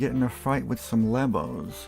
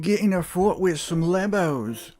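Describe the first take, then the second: First: It is said in the speaker's usual accent. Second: It is said in a put-on Australian accent.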